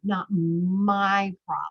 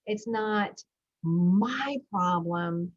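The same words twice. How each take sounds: First: "not my problem" slowed, with "my" weighted most; stress on MY. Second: "It's not my problem" said slowly, leaning hard on "my"; slow down and weigh the word "my" in "It's not my problem"; stress on MY. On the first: Coach explaining the title, stressing "my". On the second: Parent coach to listeners, slowly leaning on "my". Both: Shown as a demonstration. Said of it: "when I say my, I mean you".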